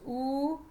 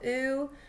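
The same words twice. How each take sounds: First: The ooh vowel has an East Coast quality. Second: The ooh vowel has a Californian Valley Girl quality. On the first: "versus the East Coast" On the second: "California, like the Valley Girl"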